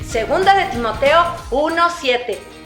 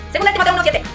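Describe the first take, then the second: First: It is said at ordinary volume and pace. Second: It is said at a quick pace. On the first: "Ahora normal" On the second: "Ahora lo vamos a decir rápido"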